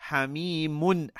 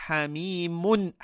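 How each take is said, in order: No difference in how they are said.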